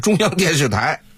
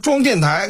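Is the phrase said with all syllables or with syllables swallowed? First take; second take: all syllables; swallowed. First: Every syllable is said clearly and in full. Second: Syllables are swallowed into a short, blurred form. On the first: "实际上是中央电视台" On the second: "装电台就这还是装电台"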